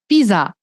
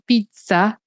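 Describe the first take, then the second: First: The middle consonant is a plain z sound. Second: The middle consonant is not a plain z sound. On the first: The speaker calls it right. "é uma palavra que parece tipo pisar no chão" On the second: The speaker calls it wrong. "cuidado para não falar pizza"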